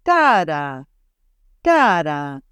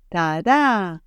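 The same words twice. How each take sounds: First: "Ta-da" said TA-da, weight on the first beat; English initial stress. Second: "ta-da" said ta-DA, weight on the second beat; Hebrew final stress. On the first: Teacher showing the English rhythm, stress up front. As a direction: hit the front of "Ta-da". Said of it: "As opposed to English". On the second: Teacher contrasting Hebrew with English, stress on the last beat. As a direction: land "ta-da" on the end. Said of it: "it goes like this". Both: Shown as a demonstration.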